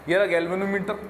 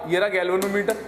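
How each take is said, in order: No difference in how they are said.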